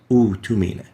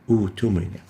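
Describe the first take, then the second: The two takes are said the same way.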